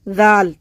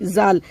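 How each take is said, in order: First: It starts with a soft th sound. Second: It starts with a whistling z sound. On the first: The speaker calls it right. "हम जबान दांतों के अंदर लगा देंगे तो आवाज आएगी" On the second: The speaker calls it wrong. "हमारी जबान मुंह के अंदर रहेगी तो सीटी आएगी"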